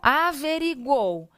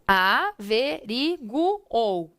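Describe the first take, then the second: First: The final vowels glide together in one syllable. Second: The final vowels are split into separate syllables. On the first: The speaker calls it right. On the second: The speaker calls it wrong.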